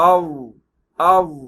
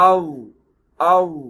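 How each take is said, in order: The two takes are said the same way.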